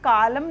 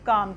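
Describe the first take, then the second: First: The L sound is pronounced with an extra vowel. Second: The L sound is left out. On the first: The speaker calls it wrong. "इसको हम कालम नहीं पढ़ेंगे" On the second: The speaker calls it right. "इसको हम क्या पढ़ेंगे? काम"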